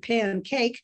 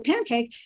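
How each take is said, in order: First: The stress is on the second part, cake. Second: The stress is on the first part, pan. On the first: A cake that is made in a pan. "a cake that's made in a pan is a pancake" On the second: The compound word for a flat fried batter cake. "has the stress in the first syllable"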